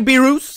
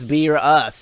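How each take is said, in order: First: The name does not start with the word beer. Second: The name sounds like the words beer and us. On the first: The speaker calls it wrong. "I used to say Beerus. I know, I know. I was wrong" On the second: The speaker calls it right. "now I'm saying it's beer us. It's like beer... and then us"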